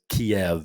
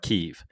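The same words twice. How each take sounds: First: It is said with a Russian-style pronunciation. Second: It is said quickly in Ukrainian style. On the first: "the way the Russians pronounce it is" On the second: "if you say it quick, it sounds like"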